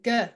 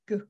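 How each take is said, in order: First: The consonant is followed by a short vowel. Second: The consonant is said alone without a vowel. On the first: The speaker calls it wrong. "we used to say g, didn't we?" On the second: The speaker calls it right. "but it's not, it's g"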